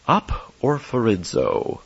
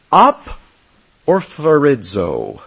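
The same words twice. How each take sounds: First: Aporphorizo again, softer, lower and slow; soft repeat of the Greek word. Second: Aporphorizo said slowly, each syllable spelled out: a-por-pho-ri-zo; careful Greek pronunciation. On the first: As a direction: echo aporphorizo quietly to let it sink in. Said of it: "Listen carefully". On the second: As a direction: sound out aporphorizo slowly for the class to hear. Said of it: "as I pronounce the word". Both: Shown as a demonstration.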